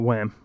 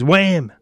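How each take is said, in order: First: It is said flatly without energy. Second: It is said with excited energy.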